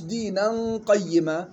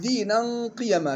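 First: The y sound is doubled. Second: The y sound is single and light. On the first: The speaker calls it wrong. "مش دينا قيما، جاء في قراءات أخرى" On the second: The speaker calls it right. "تقرأ بكسر القاف وفتح الياء مخففة"

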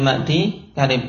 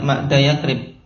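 First: The first part ends with a long 'ee' sound. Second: The first part ends with a short 'a' vowel. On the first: The speaker calls it right. "tapi ma'di karib karena ada ya-nya" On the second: The speaker calls it wrong. "juz yang pertama tidak dibaca fathah, tidak ma'da yakrib"

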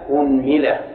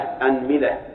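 First: The word begins with the vowel u. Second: The word begins with the vowel a. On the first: "نضم الهمزة" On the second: "نفتح الهمزة"

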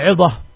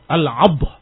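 First: The vowel after the ain is an i. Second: The vowel after the ain is an a. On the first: "Dikasrahkan ainnya, kemudian difathahkan badnya" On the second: "Difathahkan yang muhmalah. Ainnya tanpa titik. Wasukunil mu'jamah"

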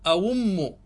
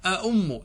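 First: The second glottal stop becomes a w sound. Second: Both glottal stops are clearly pronounced. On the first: "فإن شئت أبدلت فقلت أوم، تبدل الهمزة الثانية إلى واو" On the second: "وإن شئت حققت الهمزتين فقلت أأم، تأتي بهمزتين"

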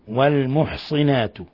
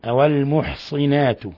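The two takes are said the same way.

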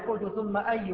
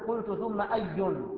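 First: The last word ends without an n sound. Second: The last word ends with an added n sound. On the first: The speaker calls it right. "يوقف على هذه الكلمة" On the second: The speaker calls it wrong. "ما تقول قلت ثم أي"

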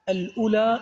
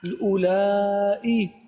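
First: The word ends in a plain long vowel. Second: The word ends in a lengthened vowel and glottal stop. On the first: This is the shortened form. "اسم مقصور" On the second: This is the lengthened form. "اسم ممدود"

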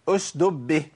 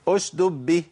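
First: Only one d sound is pronounced. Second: The same.

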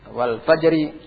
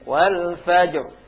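First: The r is light and carries an i vowel. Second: The phrase stops on a heavy, thick r. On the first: The reader continues without pausing. "Kalau kalian baca terus, baca dengan tipis" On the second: The reader pauses at this word. "Kalian baca dengan tebal karena waktu berhenti"

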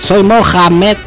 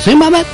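First: The phrase is said slowly and clearly. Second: The phrase is said very fast. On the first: The listener did not understand the first time. "Y cuando no lo entiende, dice" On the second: This is the usual first delivery. "Así muy rápido"

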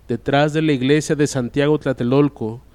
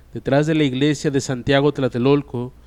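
No difference in how they are said.

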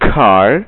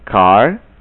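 First: The k sound has a strong puff of air. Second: The k sound has no puff of air. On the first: The speaker calls it right. "Ulangi kembali dengan yang benar" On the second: The speaker calls it wrong. "dengan cara yang salah"

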